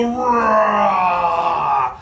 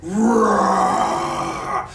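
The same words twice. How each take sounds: First: Shouted roar, bigger and louder; shouted playful bear roar. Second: Very low, growling bear roar; deep demo bear growl. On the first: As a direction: roar out loud with the kids. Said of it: "let me hear you go". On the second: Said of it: "A bear goes". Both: Shown as a demonstration.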